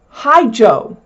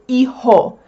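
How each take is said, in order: First: The h is sounded and j is like English j. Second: The h is silent and j is like English h. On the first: The speaker calls it wrong. "You don't say" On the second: The speaker calls it right. "the H is silent and the J is pronounced like the H is in English"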